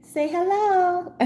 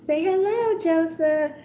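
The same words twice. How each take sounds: First: High, soft, slow coaxing; sweet pet voice. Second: High, soft pet voice; lilting voice for the kitten. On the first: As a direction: coo at the kitten slowly. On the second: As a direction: coo the kitten's name. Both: Real, not acted. Talking to the kitten.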